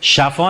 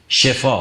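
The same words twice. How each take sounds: First: The first vowel is 'a', as in shafa. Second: The first vowel is 'i', as in shifa. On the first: The speaker calls it wrong. "شفا نه" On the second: The speaker calls it right. "شفا با کسره"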